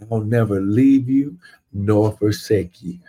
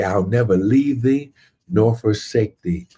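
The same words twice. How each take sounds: First: Said in the usual way. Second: "thee" leaned on, falling at the end; stressing thee. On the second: Shown as a demonstration. Preacher reads the King James line to the church, stressing "thee". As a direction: land firmly on "thee" in the old wording.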